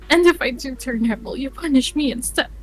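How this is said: It is spoken in an American accent. The speaker calls it right. "now it's an American accent. So redo"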